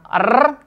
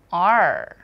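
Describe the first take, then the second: First: The tongue trills on the R sound. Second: The R sound is soft, without a trill. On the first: The speaker calls it wrong. "Bukan R" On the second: The speaker calls it right. "tapi R"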